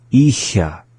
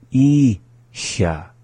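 First: ISHA joined and short; up to speed. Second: ISHA in two slow parts, gap before SHA; slowly. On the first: Teacher going through the word for learners, up to speed. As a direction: run I straight into SHA. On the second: Teacher going through the word for learners, slowly. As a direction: hold the I, pause, then SHA. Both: Shown as a demonstration. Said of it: "go through the same process".

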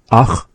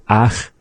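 First: "ach" said with the chwa sound, as in chwan chnam; the chwa-type "ach", pronounced with care. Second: "ach" said like the ach in nutza kwach; the other "ach", as in nutza kwach. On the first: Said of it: "which is having the chwa, as in chwan chnam". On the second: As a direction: model "ach" the way it sounds in kwach. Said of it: "as in nutza kwach". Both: Shown as a demonstration.

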